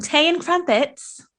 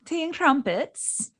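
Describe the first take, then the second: First: Tea and crumpets in a mock British accent, slow and higher; British accent attempt. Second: "Tea and crumpets" said slowly in a put-on British accent, softer; British accent demo. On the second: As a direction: show her the proper British way. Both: Shown as a demonstration. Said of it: "Did I say that right?".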